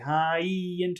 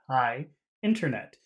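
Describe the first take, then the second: First: The words run together, joined by a linking sound. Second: A pause separates the words, with no linking sound. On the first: "when you push the words together, you have to somehow separate them" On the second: "If you stop, you don't have to put the extra sound"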